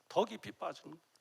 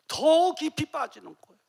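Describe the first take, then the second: First: 더 깊이 빠지는 dropped to a soft echo. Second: 더 깊이 빠지는 said higher and louder; emphatic loud. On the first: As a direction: let it sink quietly. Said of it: "soft echo". (조용히 되뇌듯) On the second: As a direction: preach it out with force. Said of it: "loud then soft repeat". (높고 크게 외치듯) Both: Shown as a demonstration.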